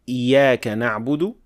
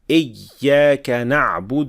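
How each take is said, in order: First: The y sound is short and single. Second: The y sound is pressed hard, splitting the word. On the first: "too quickly or too lightly, like إِيَّاكَ نَعْبُدُ with one ya" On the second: "This is too much pressing on the shadda"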